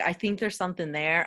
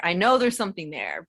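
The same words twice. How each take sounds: First: Said in the usual way. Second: Firm emphasis landing on "know"; stress on know. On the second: Real, not acted. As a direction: lean hard on "know" to show certainty. Corrects think to know.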